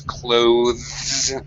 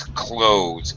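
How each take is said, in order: First: A voiced th sound comes before the final z. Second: The th is dropped, so it rhymes with close. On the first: "technically the pronunciation is clothes with the the voiced th sound" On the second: "the reduced pronunciation ... sounds exactly like the verb close"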